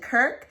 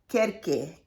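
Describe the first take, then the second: First: It is said as one syllable. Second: It is said with an extra final syllable. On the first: This is how some other people say it. The speaker calls it wrong. "some people pronounce it Kirk" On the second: This follows the accent mark in the name. The speaker calls it right. "there's an accent mark on here. So we're going to say uh, Kirke"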